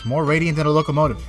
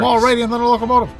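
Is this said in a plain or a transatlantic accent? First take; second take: plain; transatlantic. First: It is said in a plain American accent. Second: It is said in a transatlantic accent. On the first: "I meant to do that in ... transatlantic accent" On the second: "It works. It is transatlantic"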